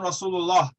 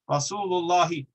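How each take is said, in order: First: The word ends on 'lah' with no final vowel. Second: The word ends with a short 'i' after 'lah'. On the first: "I'm just not saying it" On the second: "there is a kasra there"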